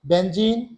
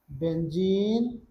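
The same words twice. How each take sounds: First: Said in the usual way. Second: benzene stretched out, very slow and clear; slow teacher's enunciation of benzene; slow drawn-out name. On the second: Shown as a demonstration. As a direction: draw out benzene slowly for students to follow. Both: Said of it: "क्या क्या नाम बोले?".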